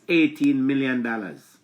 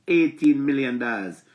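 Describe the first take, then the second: No difference in how they are said.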